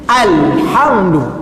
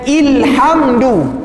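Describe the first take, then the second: First: The word begins with an a vowel. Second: The word begins with an i vowel. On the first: The speaker calls it right. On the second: The speaker calls it wrong.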